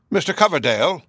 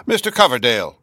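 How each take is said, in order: First: A timid, faltering call, pitched higher; hesitant call. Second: The same call again, louder and more decided; firmer repeat. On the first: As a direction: call his name shyly, unsure of yourself. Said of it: "the hesitating and ineffectual way in which he uttered it". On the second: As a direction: make up for the timid first try with a firmer call. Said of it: "repeating my name twice in order to make up for". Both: A narrator's reading.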